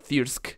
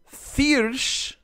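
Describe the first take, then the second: First: The word ends with a 'k' sound. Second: The word ends with an 'sh' sound. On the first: The speaker calls it wrong. "not Thirsk. I pronounced it Thirsk" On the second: The speaker calls it right. "we have Thirsch"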